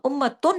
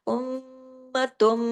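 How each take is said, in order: First: The word ends with a plain n sound. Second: The word ends with a nasalized m sound. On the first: The speaker calls it wrong. "अब इसको हम उम्मतुन नहीं पढ़ेंगे" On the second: The speaker calls it right. "उम इस पे गुन्ना करते हुए उम्मतुम दोनों पे अकमल गुन्ना करेंगे"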